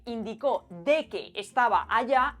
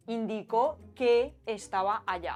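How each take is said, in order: First: Slow, with a stressed de before que; Chilean dequeísmo. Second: Said in the usual way. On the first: Shown as a demonstration. Teacher showing the Chilean form slowly. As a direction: say "indicó de que" slowly, leaning on "de". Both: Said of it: "en lugar de decir".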